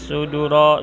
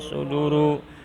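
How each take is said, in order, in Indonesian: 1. Kata itu diakhiri dengan huruf hidup a. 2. Kata itu diakhiri dengan huruf hidup u. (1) "tidak boleh suduro" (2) "tidak boleh"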